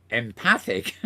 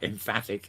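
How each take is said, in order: First: Empathic, with a th in the middle; corrected word empathic. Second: Emphatic, with an f in the middle; mistaken word emphatic. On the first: Podcaster correcting his own slip, empathic said carefully. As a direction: say empathic slowly, th not f. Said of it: "sorry, em-, empathic, not emphatic". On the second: Podcaster rejecting his slip, emphatic said with an f. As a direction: say emphatic with f, not th. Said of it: "not emphatic". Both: Shown as a demonstration.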